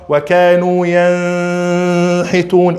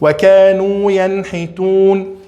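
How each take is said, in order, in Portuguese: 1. O som do n é embaçado e não fica claro. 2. O som do n é pronunciado claramente e separado. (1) "não fala ... errado" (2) "a gente precisa fazer idhar"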